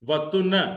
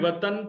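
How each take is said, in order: First: The second vowel is a 'u' sound. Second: The second vowel is an 'a' sound. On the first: This is the Sindhi pronunciation. "तोय पर पेश" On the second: This is the Urdu pronunciation. "Urdu में वतन तोय पर जबर आती है"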